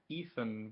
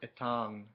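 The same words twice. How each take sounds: First: The name is said with an English pronunciation. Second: The name is said with a French pronunciation. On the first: "would be the English one" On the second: "which is the French pronunciation"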